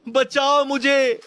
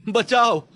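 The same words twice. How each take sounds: First: Very high, loud, slow wail of बचाओ मुझे; drawn-out painful scream. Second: High, loud cry for help; painful scream. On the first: Trapped man in the mine wails slowly for help. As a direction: stretch the scream out in agony. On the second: Trapped man in the mine screams for help. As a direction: scream bachao in agony. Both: Acted. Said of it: "किसी की दर्द भरी चीख".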